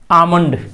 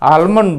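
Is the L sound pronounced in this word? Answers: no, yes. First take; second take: no; yes. First: The L sound is silent after the first vowel. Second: The L sound is pronounced after the first vowel. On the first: The speaker calls it right. "इसका असली उच्चारण एल यहाँ silent हो गया" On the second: The speaker calls it wrong. "यदि हम लोग बोलते हैं आलमंड"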